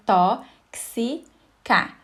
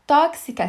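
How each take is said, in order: First: "tó-xi-ca" split slowly into three separate syllables. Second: Said in the usual way. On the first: Shown as a demonstration. Teacher splitting a word for exam students, "tó-xi-ca" syllable by syllable. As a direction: break "tó-xi-ca" apart, a pause after each syllable. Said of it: "se você separar".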